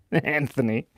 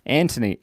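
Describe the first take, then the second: First: "Anthony" said with a soft TH, An-thony; "Anthony" with th as in thin; pronounced with th. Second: "Anthony" said with a hard T, An-tony; "Anthony" with t, no th sound; pronounced with t. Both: Shown as a demonstration. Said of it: "is it pronounced Anthony or Anthony".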